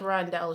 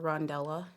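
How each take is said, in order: First: The name ends without an extra final syllable. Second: The name ends with an extra final syllable. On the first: The speaker calls it right. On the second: The speaker calls it wrong.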